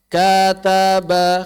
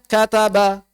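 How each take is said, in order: First: It is read slowly. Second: It is read fast.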